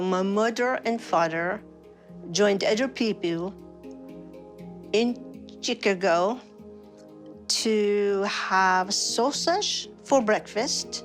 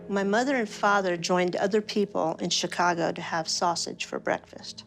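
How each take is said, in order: First: It is said with a Swedish-sounding foreign accent. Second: It is said without the Swedish-sounding foreign accent. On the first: This is how the speaker normally sounds now. "Here's [name] repeating the line in her usual voice" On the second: This is how the speaker sounded before. "listen to what happens when she focuses on using the right side of her brain"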